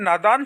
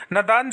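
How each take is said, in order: First: नादान with a long first aa, naa-daan; नादान said correctly with a long aa; correct pronunciation. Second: नदान with a short first a, na-daan; नदान said wrongly with a short a; wrong pronunciation. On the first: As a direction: stretch the first syllable of नादान. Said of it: "शुद्ध होता है". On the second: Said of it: "अशुद्ध होता है". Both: Shown as a demonstration.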